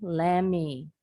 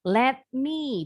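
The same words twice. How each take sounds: First: The words are blended into one reduced word. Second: Both words are said fully and separately.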